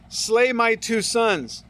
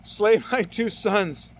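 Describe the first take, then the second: First: Slow and weighty, each word laid down; slow solemn reading. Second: Slow, with a laugh breaking in after Slay; laughing reread. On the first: Preacher reading Reuben's vow to his father, slow and solemn. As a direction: read Reuben's vow gravely, unhurried. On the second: Preacher rereading Reuben's rash vow to the congregation, laughing. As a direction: chuckle at the absurd vow as you repeat it. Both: Acted. Think that's gonna get back to his kids?.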